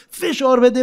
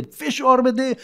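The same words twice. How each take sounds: First: فشار بده called out high and loud; a showy demonstration yell of فشار بده; demo shout. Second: Said in the usual way. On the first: Shown as a demonstration.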